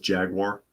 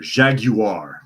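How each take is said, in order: First: It is said with an American pronunciation. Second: It is said with a British pronunciation.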